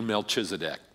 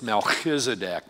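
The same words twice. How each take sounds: First: The middle consonant is a plain, non-throaty sound. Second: The middle consonant is a rough, throaty sound. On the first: "I'm not going to do that all through the message today. I'm just going to do Melchizedek" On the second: "probably in Hebrew, it's more likely that it's Melchizedek because they have that, there's a pronunciation of a CH that almost is like clearing your throat"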